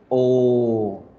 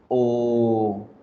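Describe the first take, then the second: Both takes have the same delivery.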